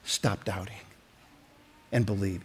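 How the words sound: It is said with calm compassion.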